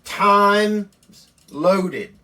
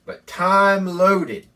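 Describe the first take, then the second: First: "Times" said loudly and high with the S clearly heard; loudly stressing the extra S in "Times"; reading the misprint. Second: "time" said slowly with no S, singular; drawn-out "time loaded" without the S; slow, careful "time" as the correct word; corrected reading. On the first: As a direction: read it as "Times loaded" with a plural S. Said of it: "They put an S on the end". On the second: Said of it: "They put an S on the end of the time". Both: Shown as a demonstration.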